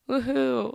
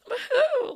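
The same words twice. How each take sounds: First: It is said in a low voice. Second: It is said in a high voice.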